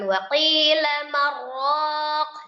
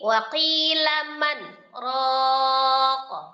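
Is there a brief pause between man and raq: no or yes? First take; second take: no; yes. First: Man and raq merge without any break. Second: A brief stop separates man from raq. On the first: The speaker calls it wrong. "Dibacanya bukan waqila marraq, bukan" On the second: The speaker calls it right. "tapi waqila man raq"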